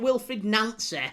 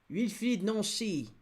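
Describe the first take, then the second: First: The name is said in a Northern English accent. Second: The name is said in a French accent. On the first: The speaker calls it wrong. "That's how us Northerners would pronounce it" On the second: The speaker calls it right. "That's I'm sure how he would pronounce it"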